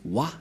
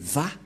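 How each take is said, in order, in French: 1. La syllabe commence par un son W. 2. La syllabe commence par un son V. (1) "C'est pourquoi les gens disent Wa. Mais en fait, ce n'est pas Wa" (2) "mais Va pour les Juifs"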